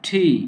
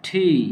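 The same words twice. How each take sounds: No difference in how they are said.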